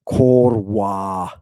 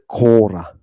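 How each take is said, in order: First: It is said in the ancient Mycenaean way. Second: It is said in the modern way. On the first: "If you're ancient, ancient, Mycenaean, you're going to say the Korwa" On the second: "that's if you're modern"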